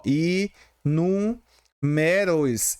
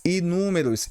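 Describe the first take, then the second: First: "E números" very slow, split into separate syllables. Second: Said in the usual way. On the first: Shown as a demonstration. Teacher showing pupils a proparoxytone, syllable by syllable. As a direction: draw out "E números" piece by piece, pausing between. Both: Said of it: "E números é uma proparoxítona".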